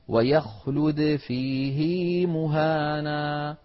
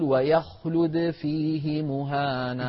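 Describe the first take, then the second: First: The vowel after the h is lengthened. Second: The vowel after the h is short. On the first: This is the actual reading of this verse. "لا يصلها إلا في لفظ فيه" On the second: This is what the general rule would predict. "كان القاعدة أن يقول"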